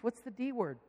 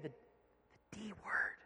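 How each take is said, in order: First: Said in the usual way. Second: Very slow, secretive whisper; hushed, drawn-out confession; imitated child's whisper. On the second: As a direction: draw it out in a whisper. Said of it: "she whispers".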